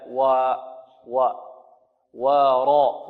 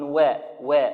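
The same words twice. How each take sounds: First: و light but not bent, then ورا; moderate light waw. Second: و bent toward a ya sound; overly thin waw. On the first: Teacher showing a moderate waw. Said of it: "هكذا". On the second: Teacher imitating the student's over-thin waw. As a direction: mimic the over-thinned waw. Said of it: "فربما يقللها أو يشمها الياء". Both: Shown as a demonstration.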